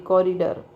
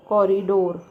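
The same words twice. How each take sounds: First: कॉरिडोर with a short schwa in the last syllable; reduced "-der" ending. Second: कॉरिडोर ending in a long, round "-dor"; full "door" ending. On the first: Teacher correcting the ending for students, कॉरिडोर with a weak "-der". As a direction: say कॉरिडोर as "cori-der", not "door". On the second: Teacher showing students a word ending, कॉरिडोर with a full "-dor". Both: Shown as a demonstration. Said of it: "डोर नहीं है actually".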